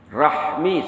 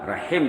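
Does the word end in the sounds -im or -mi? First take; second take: -mi; -im. First: The word ends with the sounds h-m-i. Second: The word ends with the sounds h-i-m. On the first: This is the original Arabic form. "Yang sebetulnya silaturahmi ya" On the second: This is how Malay speakers say it. "rahim dia cakap"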